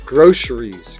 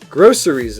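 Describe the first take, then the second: First: The middle consonant is a sh sound. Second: The middle consonant is an s sound.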